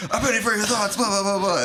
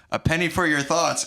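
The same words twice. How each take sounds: First: High-pitched mock assassin's cry; comic high-voiced proclamation; mock yell. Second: Said in the usual way. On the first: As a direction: yell it like a rehearsed catchphrase, pitched way up. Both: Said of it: "had planned to yell his carefully chosen catchphrase".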